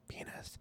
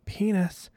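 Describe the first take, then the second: First: It is said very softly. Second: It is said somewhat louder.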